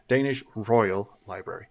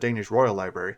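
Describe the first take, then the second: First: The emphasis falls on Danish. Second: The emphasis falls on Royal Library. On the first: The speaker calls it right. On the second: The speaker calls it wrong.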